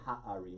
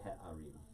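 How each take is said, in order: First: The first vowel sounds like 'ah'. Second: The first vowel sounds like 'eh'. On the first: The speaker calls it wrong. "you don't say ha'arim" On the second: The speaker calls it right. "you say he'arim"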